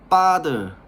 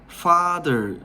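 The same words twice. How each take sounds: First: The word begins with a tense p sound. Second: The word begins with a soft f sound. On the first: "쌍피읍 발음으로 father 이렇게" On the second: "영어로 father F 발음 하잖아요"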